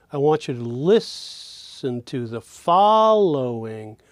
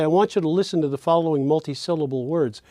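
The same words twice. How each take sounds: First: Slow phrase, "lis" of "listen" and "fol" of "following" held long; stressed syllables stretched. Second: Quick connected flow, syllables run together as one idea; talking fast. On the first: Teacher exposing the phrase's melody, "listen" and "following" slowly stretched. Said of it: "the fall of following is the highest pitch". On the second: Lecturer giving an example instruction to listeners, fast and flowing. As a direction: rattle it off as a single fluent phrase. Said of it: "I'm talking too fast". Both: Shown as a demonstration.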